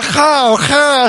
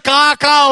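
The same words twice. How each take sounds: First: Stylish, breath-led "ha, ha" caw; Western-accented crow caw. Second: Plain imitated "Ka, ka"; ordinary crow caw. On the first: Retold or imitated. Preacher mimicking American crows, stylish accented caw. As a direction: caw "ha, ha" with a little foreign style. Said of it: "With accent". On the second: Preacher showing every nation's crow, plain "Ka, ka". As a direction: caw a simple open "Ka, ka". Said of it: "Every nation crow said".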